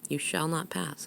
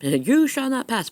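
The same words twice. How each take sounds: First: It is said calmly, without any attack. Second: It is said forcefully, like a dramatic command.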